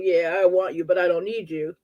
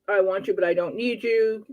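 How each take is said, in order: First: It sounds cold and dismissive. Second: It sounds warm and affectionate.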